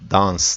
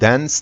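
First: It is said with a British 'a' vowel. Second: It is said with an American vowel. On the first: "yazılışına benzeyen şekilde a diye okuyacak" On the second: "Amerikan İngilizcesinde dance diye okunuyor"

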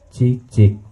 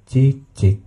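No difference in how they are said.

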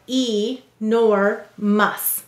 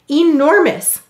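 First: The word is said in separate syllables with a long first vowel. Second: The word is said smoothly with a weak first vowel. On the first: This is how the word is said to help spell it. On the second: This is how the word is normally spoken.

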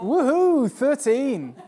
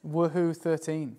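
First: It is said with more energy. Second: It is said with little energy.

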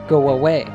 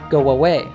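First: A W sound links 'go' and 'away'. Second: The same.

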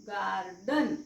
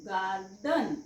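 Both takes have the same delivery.

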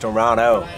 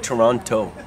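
First: The middle t sound is dropped. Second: The middle t sound is clearly pronounced. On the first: The speaker calls it right. "We don't say the T, it's Toronto" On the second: The speaker calls it wrong. "don't say Toronto"

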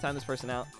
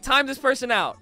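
First: It is said in a serious, upset tone. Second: It is said in a light, joking tone. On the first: The speaker is genuinely bothered by the comment. "a more serious tone... I will sound upset" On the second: The request is not meant seriously. "I am one hundred percent joking every time. And you could tell"

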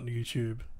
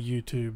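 First: It is said with an Australian accent. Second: It is said with an American accent. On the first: "which is the way Australians say it" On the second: "Americans say YouTube"

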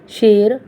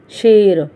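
First: The word begins with an sh sound. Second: The word begins with an sh sound.

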